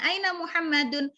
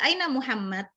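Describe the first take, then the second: First: The name ends with an audible -un sound. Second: The name ends without the -un sound. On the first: It is the full form used while studying. "Ini cuma kita karena belajar" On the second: It is the form used in ordinary speech. "ngomong biasa"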